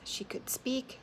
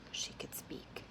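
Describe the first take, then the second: First: Said in the usual way. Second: Breathy whispered repeat. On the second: A narrator's reading. Narrator echoing her only option, in a whisper. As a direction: hush it to a whisper.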